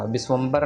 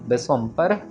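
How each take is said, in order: First: The consonant before the final syllable is voiced 'b'. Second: The consonant before the final syllable is unvoiced 'p'. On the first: The speaker calls it wrong. "बब्बा ना लग जाए हमारा" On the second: The speaker calls it right. "यहाँ पब्बे के साथ है"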